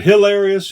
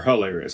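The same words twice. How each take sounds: First: Hilarious said as "hill-AIR-ee-us"; short-i first syllable. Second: Hilarious said as "huh-LAIR-ee-us"; schwa first syllable. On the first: Speaker checking how to say hilarious, "hill" first syllable. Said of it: "Is it hilarious or hilarious?". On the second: Speaker weighing his own way of saying hilarious, "huh" first syllable. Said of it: "I say hilarious". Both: Shown as a demonstration.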